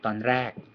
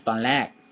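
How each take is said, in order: First: The second word starts with a D-like R. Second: The second word starts with an L sound. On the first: "There's almost a D in there" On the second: "with an L"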